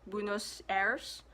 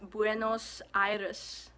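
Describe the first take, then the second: First: It is said with an English-style pronunciation. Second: It is said with a Spanish pronunciation. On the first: The speaker calls it wrong. "I used to pronounce it as" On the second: The speaker calls it right. "but in Spanish it's"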